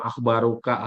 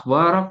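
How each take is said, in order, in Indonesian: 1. Kata ini berakhir dengan bunyi '-uka' yang lebih panjang. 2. Kata ini berakhir dengan bunyi '-ak' yang pendek. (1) "Gak usah pakai mau akhbaruka" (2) "Winta akhbarak gitu aja"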